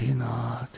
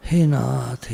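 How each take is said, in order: First: Whisper. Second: Said in the usual way. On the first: Acted. Devotional prayer repeated softly.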